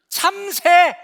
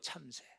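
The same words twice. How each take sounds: First: It is said with irritation. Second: It is said calmly.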